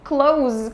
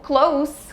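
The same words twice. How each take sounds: First: The word ends in a buzzing z sound. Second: The word ends in a hissing s sound. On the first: It means to shut something. "com som de Z significa fechar" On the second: It means near. "close com som de S seria, uh, teria o significado de próximo"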